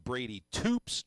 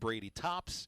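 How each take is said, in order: First: The surname has the long 'oo' vowel. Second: The surname has the short 'o' vowel. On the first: The speaker calls it right. "it is [name]" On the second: The speaker calls it wrong. "not Brady Tops"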